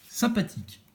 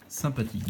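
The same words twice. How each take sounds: First: Much higher, sing-song Sympathique. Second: Said in the usual way. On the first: Shown as a demonstration. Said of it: "said twice, first high". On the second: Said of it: "said twice, second plain".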